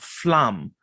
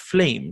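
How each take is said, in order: First: The vowel is a short 'a' sound. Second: The vowel sounds like 'ay' in 'day'. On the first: The speaker calls it wrong. "not flam or flamme" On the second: The speaker calls it right. "flame is pronounced flame"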